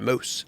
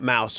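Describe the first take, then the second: First: It is said in a Canadian accent. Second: It is said in an American accent.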